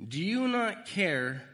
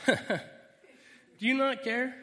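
First: Slow, loud, higher plea; loud, drawn-out reading of the disciples' cry; pleading scripture read. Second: Much higher, loud indignant cry; a disciple yelling at Jesus, indignant; exasperated outburst. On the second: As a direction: burst out at the sleeping teacher. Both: Acted.

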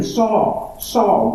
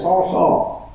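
First: "Saul, Saul" as an earnest plea, the first "Saul" higher; heartfelt calling. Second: Said in the usual way. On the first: Shown as a demonstration. Jesus pleading with Saul, calling "Saul, Saul" heartfelt. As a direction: call "Saul, Saul" with longing, not as a flat read. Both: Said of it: "Don't read that as Saul, Saul".

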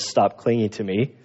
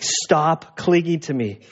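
First: Gentle and low, as loving as possible. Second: Said in the usual way. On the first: Retold or imitated. Jesus gently telling Mary to let go, loving and low. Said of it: "as loving as possible".

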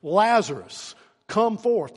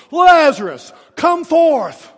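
First: Calling out to a dead man; a strong loud summons; preacher calling Lazarus out. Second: Full roaring shout, much higher and louder; preacher's all-out cry to the tomb; top-of-the-lungs shout. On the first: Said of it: "he cried out with a loud voice". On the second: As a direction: bellow it with everything you have. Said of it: "he cries out at the top of his lungs". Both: Retold or imitated.

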